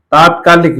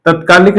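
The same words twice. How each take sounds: First: तात्कालिक with a long aa in the first syllable; teacher stresses the long आ of तात्कालिक; correct form. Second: तत्कालिक with a short first vowel, the wrong form; teacher says तत्कालिक with a short त. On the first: Teacher gives the correct form with a long first vowel. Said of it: "ए का आ हो गया". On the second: Teacher shows students the wrong form, short first vowel. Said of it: "तत्कालिक नहीं होता है". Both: Shown as a demonstration.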